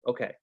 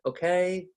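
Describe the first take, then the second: First: Said in the usual way. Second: "okay?" with the pitch sliding up at the end; rising question tune. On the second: Shown as a demonstration. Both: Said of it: "we go up at the end".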